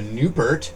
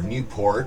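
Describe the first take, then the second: First: It is pronounced the way locals say it. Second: It is pronounced the way outsiders say it.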